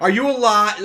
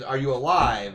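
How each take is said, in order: First: High, loud mock-worried question; mock worried mom. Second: Said in the usual way. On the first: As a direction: squeal it like a fretting mom. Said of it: "she's gonna think, like". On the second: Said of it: "Her next response".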